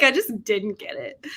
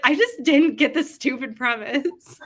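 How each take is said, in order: First: Lightly sassy read-out; mildly sassy, imitating a commenter. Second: Louder, higher, laughing through the words; laughing mock-quote. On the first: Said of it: "I love how Kim is so sassy". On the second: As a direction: imitate a sassy dismissal, cracking up. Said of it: "It was making me laugh".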